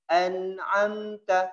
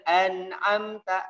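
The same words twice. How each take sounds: First: The n is held with a nasal hum. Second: The n is short, without nasal hum. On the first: The speaker calls it right. "Dimasukkan sedikit ke hidung" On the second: The speaker calls it wrong. "tidak boleh an'amta, an'amta di mulut"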